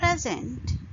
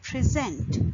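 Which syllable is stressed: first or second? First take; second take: first; second. First: The stress is on the first syllable. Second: The stress is on the second syllable.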